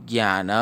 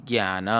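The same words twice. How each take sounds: Both takes have the same delivery.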